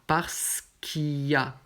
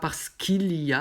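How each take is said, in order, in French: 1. Le son L de 'qu'il' est omis. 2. Le son L de 'qu'il' est prononcé. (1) "on garde juste le Y" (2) "Pas parce qu'il y a"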